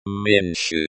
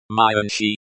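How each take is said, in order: First: "меньше" said the Russian way, MYEN-shuh; Russian pronunciation. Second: "меньше" in English sounds, MY-un-shee; anglicized pronunciation. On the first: Language teacher introducing the word for less, Russian "меньше". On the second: Language teacher showing how it is pronounced, anglicized "меньше". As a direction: read "меньше" like an English transliteration. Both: Shown as a demonstration.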